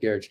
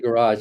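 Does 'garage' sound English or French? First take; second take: English; French. First: Garage is said without a French-sounding ending. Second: Garage is said with a French-sounding ending. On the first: This is how it is said elsewhere. "instead of garage" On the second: This is how it is said here. "we say garage"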